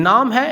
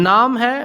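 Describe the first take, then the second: The two takes are said the same way.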